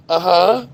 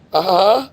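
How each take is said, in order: Both takes have the same delivery.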